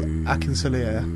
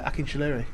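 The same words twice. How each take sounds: First: The middle consonant is a plain s sound. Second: The middle consonant is an sh sound. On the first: The speaker calls it wrong. "you said it differently" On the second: The speaker calls it right. "So the S is like a SH"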